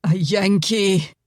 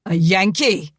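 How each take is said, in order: First: Slow despairing "A Yankee," falling away; slow moaned "A Yankee,"; moaning. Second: Loud appalled "A Yankee?"; frenzied outburst. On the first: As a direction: groan "A Yankee," in defeat, slowly. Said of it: "Angus moaned". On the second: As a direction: spit out "A Yankee?" in outraged disbelief. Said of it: "Angus's frenzy was renewed". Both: Acted.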